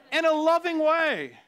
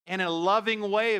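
First: "In a loving way" slow, high and loud; emphatic repeat. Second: Said in the usual way. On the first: Shown as a demonstration. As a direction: stretch out "loving way" with a loud, pleading push.

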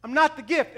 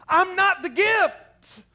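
First: Not said plainly at normal speed, still raised; quicker repeat of the denial. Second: NOT stretched out slow, high and loud; slow emphatic denial. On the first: Preacher repeating the world's claim, brisker and raised. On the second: Preacher mocking the world's voice, slow and loud. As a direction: lean hard and slow on the word not. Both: Retold or imitated. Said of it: "the world pushes us to a place that says".

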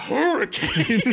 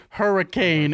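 First: High, hammed-up astonished echo; mock freak-out. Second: Slightly raised, drawn-out single word; imitated ghost box. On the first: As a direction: gasp it out like an overexcited ghost hunter. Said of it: "and he goes". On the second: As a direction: lightly mimic a word-speaking gadget. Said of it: "it goes".

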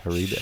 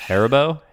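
First: Haribo tried softly as huh-REE-bo; tentative pronunciation. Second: Haribo said HAIR-uh-bo, rising like a question; alternative pronunciation. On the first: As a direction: stress the middle of Haribo, REE, low and unsure. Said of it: "I don't even know". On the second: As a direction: try Haribo with stress up front on HAIR. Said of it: "completely split". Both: Shown as a demonstration.

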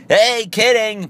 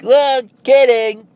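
First: High, loud, slow sing-song "Hey, kidding"; mock kidding. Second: High, loud, slow sing-song "kidding"; mock kidding. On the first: Prankster to victim, high sing-song reveal. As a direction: chirp it out like it was all a joke. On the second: Prankster to friend, high sing-song reveal.

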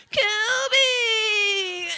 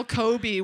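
First: Kobe yelled high and loud; mock Kobe yell. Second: Said in the usual way. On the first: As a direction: bellow Kobe like a showboating kid. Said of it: "Boom, boom, boom". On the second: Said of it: "Just yell".

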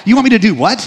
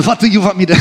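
First: Said in the usual way. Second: Lightly faked Ukrainian accent; half-hearted try at a Ukrainian accent; bad Ukrainian accent. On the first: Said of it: "but you get the idea". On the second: Comedian president questioning the government's offer, badly faked Ukrainian accent. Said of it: "that's not a good accent".

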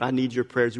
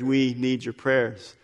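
First: Said in the usual way. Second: We leaned on, slow and deliberate; slow down and press the word We; stress on We. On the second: Shown as a demonstration.

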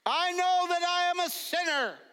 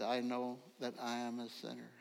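First: High, loud confession of sin; praying out loud. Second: Said in the usual way. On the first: Retold or imitated. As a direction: lead the congregation's prayer, loud and high. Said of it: "pray out loud". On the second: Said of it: "they all said".

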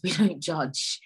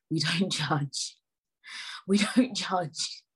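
First: Said in the usual way. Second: Stretched out slowly, word by word; slowing for emphasis; slow, emphatic. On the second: Shown as a demonstration. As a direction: spell out the motto slowly. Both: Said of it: "repeats the motto three ways".

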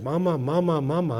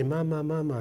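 First: Put-on parent coaxing child. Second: Put-on child echoing. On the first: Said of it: "You want". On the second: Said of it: "and they say".

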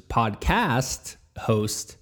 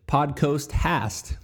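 First: "podcast host" drawn out slowly, vowels in their proper places; "podcast host" with CAST and HOST said deliberately; careful correction. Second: "Podcast hast" spoken as "podcoast hast", slowly; "Podcast hast" with COAST for cast and HAST for host; swapped vowels. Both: Real, not acted. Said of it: "I'm screwing up my words".

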